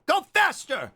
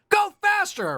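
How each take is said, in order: First: Said in the usual way. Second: High squeaky slug cry; slug creature voice. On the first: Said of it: "take with the slug voice after it". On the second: Pretend. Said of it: "That's what he sounds like".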